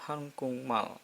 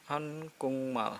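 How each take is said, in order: The two takes are said the same way.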